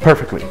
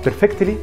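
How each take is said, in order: First: The t sound is dropped. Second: The t sound is clearly pronounced. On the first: The speaker calls it right. "يا اما تقولها" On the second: The speaker calls it wrong. "مش تمام طبعا"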